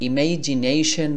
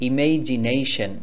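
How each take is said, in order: Both takes have the same delivery.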